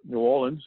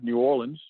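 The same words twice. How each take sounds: First: The name is said the local way. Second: The name is said the non-local way.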